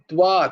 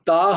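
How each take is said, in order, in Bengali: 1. t-এর পরে w ধ্বনি আসে। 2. t-এর পরে সরাসরি স্বরধ্বনি আসে। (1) "তয়ে বয়ে আঁকা আছে হ্যাঁ তো উচ্চারণটাও সেরাম হবে" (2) "তা হবে না"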